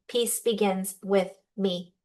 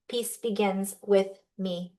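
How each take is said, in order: Both takes have the same delivery.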